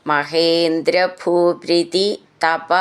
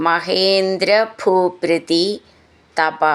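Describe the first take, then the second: The two takes are said the same way.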